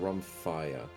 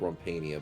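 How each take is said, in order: First: The word ends with a '-phia' sound. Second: The word ends with a '-pania' sound. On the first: The speaker calls it right. "but it's a Rumphia" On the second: The speaker calls it wrong. "I always say it wrong. I call it a Rumpania"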